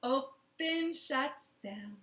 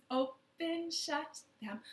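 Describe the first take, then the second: No difference in how they are said.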